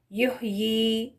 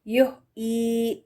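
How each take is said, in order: First: یحیی with both ya sounds clear; correct pronunciation. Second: یحیی slowly with the middle ya dropped; drawn-out یحیی said as yuhee, no ya; wrong pronunciation. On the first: Teacher contrasts correct yuhyee with the dropped ya. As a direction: say یحیی fully, yuh-yee. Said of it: "یحیی ہے correct pronunciation". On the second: Teacher shows the mistake of dropping ya. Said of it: "یہ غلط". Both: Shown as a demonstration.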